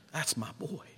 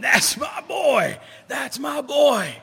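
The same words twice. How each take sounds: First: Soft, quiet and tender with a lift at the end; tender father. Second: High, loud and slow, bursting with pride; proud father's shout. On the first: Prodigal's father forgiving his son, soft and tender. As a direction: murmur it with gentle love. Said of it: "the father of that prodigal says". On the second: Father in the stands shouting over the crowd, proud high yell. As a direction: bellow it across the ballpark. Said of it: "pointing his finger, going". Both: Retold or imitated.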